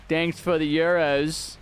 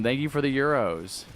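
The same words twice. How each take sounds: First: A slow, higher, half-hearted European accent; clumsy mock European accent; attempted European accent. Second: Said in the usual way. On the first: Shown as a demonstration. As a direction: try a European accent on thanks, slowly. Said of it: "oh, dude, I can't do an accent". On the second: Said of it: "I can't do an accent".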